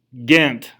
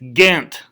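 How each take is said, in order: First: The name is said in the Belgian fashion. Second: The name is said in the Belgian fashion.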